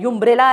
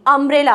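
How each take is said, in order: First: यूम्ब्रेला starting with a "yoo" sound; wrong y onset. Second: अम्ब्रेला opening on a short "uh"; correct vowel onset. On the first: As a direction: say यूम्ब्रेला with a y-glide in front. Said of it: "अम्ब्रेला का sound कैसे आ रहा है". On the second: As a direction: say अम्ब्रेला with no y-glide, "um-". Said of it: "अ की sound आ रही है". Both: Shown as a demonstration.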